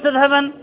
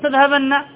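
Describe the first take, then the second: First: The final n is short and single. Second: The final n is long and doubled. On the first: "خفيفة" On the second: "ثقيلة"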